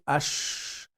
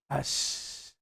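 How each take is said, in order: First: The sh sound is made with rounded lips. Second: The sh sound is made with flat lips. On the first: The speaker calls it wrong. "disturbing neighbors would be ash, ash, using the lips" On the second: The speaker calls it right. "We keep the uh, lips flat"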